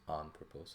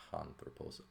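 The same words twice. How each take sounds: First: Anthropos starting cleanly on the vowel, no h; smooth breathing. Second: Anthropos wrongly started with an h, "hanthropos"; rough breathing. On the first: Teacher correcting the wrong take, anthropos with smooth breathing, no h. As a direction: drop any h from the front of anthropos. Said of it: "So we have smooth breathing mark". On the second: Teacher showing what it is not, anthropos said with an initial h. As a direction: put a breathy h before anthropos. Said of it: "not anthropos". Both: Shown as a demonstration.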